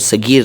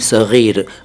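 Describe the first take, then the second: First: The middle consonant is a plain hard g. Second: The middle consonant is a throaty fricative gh. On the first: The speaker calls it wrong. "सगीर नहीं" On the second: The speaker calls it right.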